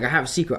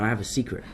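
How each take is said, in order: First: It is said in an English accent. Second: It is said in the speaker's own American accent.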